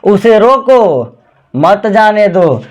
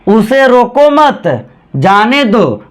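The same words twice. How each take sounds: First: There is a pause after रोको. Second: There is a pause after मत.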